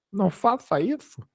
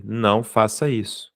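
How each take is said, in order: First: Squeaky-high put-on voice, rising at the end; mock high-pitched plea. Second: Said in the usual way. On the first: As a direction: repeat the warning in a playful, much higher voice. Mock repeat of his warning.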